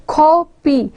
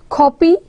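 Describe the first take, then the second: First: CO-py split, weight on the CO; stress on first syllable. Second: Said in the usual way. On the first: Shown as a demonstration. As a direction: say copy in two beats, stressing the first syllable. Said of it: "We are stressing the first syllable". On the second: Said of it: "the example that I just gave".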